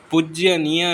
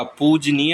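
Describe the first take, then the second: First: पूज्यनीय with "jya" before "neey"; wrong extra y. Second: No y after the j of पूजनीय; correct form. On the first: Teacher showing the mistake, पूज्यनीय with "jya". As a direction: add a y glide after the j of पूज्यनीय. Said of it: "पूज्यनीय नहीं होता". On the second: Teacher giving the correction, पूजनीय with plain j. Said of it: "पूजनीय होता है". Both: Shown as a demonstration.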